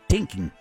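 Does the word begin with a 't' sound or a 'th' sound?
t. The word begins with a plain 't' sound. "they can't put a, you know, T and H. It's just a T"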